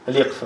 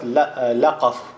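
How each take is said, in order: First: The first syllable has an 'i' vowel. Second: The first syllable has an 'a' vowel. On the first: The speaker calls it right. "называется Ликфа" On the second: The speaker calls it wrong. "некоторые говорят Лякаф. Лякаф – это неправильное"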